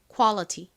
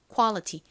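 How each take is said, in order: No difference in how they are said.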